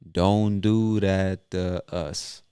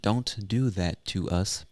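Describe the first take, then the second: First: 'That' starts with a soft d; 'to' becomes duh. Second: Each word is pronounced fully and clearly. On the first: "the T H ... becomes a soft D sound ... the word to, becomes duh" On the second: "instead of saying"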